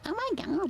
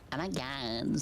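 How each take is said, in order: First: The put-on voice is pitched higher. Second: The put-on voice is pitched lower. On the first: "What if I do it even higher?" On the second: "Valley girl"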